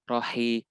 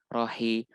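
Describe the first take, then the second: The two takes are said the same way.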